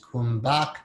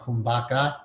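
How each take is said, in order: First: The word ends without a final vowel sound. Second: The word ends with an added final ah sound.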